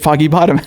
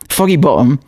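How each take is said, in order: First: It is said in the speaker's plain accent. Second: It is said in a Cockney accent.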